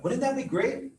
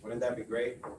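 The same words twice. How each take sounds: First: It is said with lively, engaged energy. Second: It is said flatly, like reading aloud. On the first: The speaker sounds motivated and engaged. The speaker calls it right. "it sounds totally different" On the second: The speaker shows no motivation. The speaker calls it wrong. "If I sound like I'm reading"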